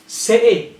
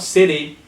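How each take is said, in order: First: Higher "city" as "si'ee"; throat catch for the T in "city"; glottal T. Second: "city" as "siddy". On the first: Teacher giving an example, "city" with a glottal stop. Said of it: "glottal T". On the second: Teacher showing what to avoid, "city" with a tapped T. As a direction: tap the T in "city". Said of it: "not city". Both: Shown as a demonstration.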